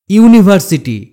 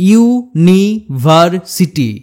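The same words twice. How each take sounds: First: Said in the usual way. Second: "university" very slowly, ইউ, নি, ভার, city; slow sounding-out of "university" with a pause after each part; split into syllables. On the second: Shown as a demonstration. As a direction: break "university" into spaced chunks. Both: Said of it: "তিনটির বেশি syllable থাকে".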